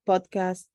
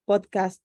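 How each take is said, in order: Both takes have the same delivery.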